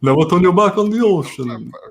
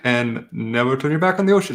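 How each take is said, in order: First: It is said in a put-on Strahd voice. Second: It is said in his normal voice.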